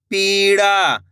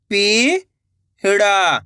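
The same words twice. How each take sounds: First: Said in the usual way. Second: "पीड़ा" split into two long syllables. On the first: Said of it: "तो मिलके बन जाएगा". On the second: Shown as a demonstration. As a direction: draw out पी, pause, then ड़ा in "पीड़ा". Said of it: "एक एक अक्षर का उच्चारण". ("पीड़ा" को तोड़कर, पी... ड़ा)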